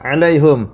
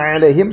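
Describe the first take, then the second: First: The vowel after the h is 'u'. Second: The vowel after the h is 'i'. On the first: "hanya di dhamma" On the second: "seperti yang kita baca"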